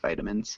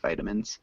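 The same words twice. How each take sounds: First: It is said in an American accent. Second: It is said in an American accent.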